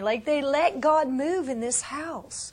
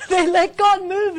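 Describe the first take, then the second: First: Said in the usual way. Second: High, loud joyful repeat; joyful emphatic repeat for the crowd; excited exclaim. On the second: Real, not acted. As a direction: ring it out with delight.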